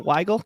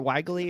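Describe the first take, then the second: First: The name is said with an 'eye' vowel. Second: The name is said like 'wiggly'. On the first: The speaker calls it right. "good job, pal" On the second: The speaker calls it wrong. "Everybody calls me like Wiggly"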